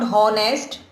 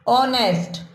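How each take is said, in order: First: The word begins with an audible H sound. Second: The word begins with a vowel, no H. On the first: The speaker calls it wrong. "It is not हॉनेस्ट, है से आवाज शुरू नहीं है" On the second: The speaker calls it right. "अ से शुरू है ऑनेस्ट"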